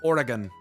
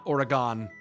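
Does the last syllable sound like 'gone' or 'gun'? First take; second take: gun; gone. First: The last syllable sounds like gun. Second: The last syllable sounds like gone. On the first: The speaker calls it right. "It's Oregon" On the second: The speaker calls it wrong. "Not Oregon. There's no N, there's no E on the end of it. It's not gone"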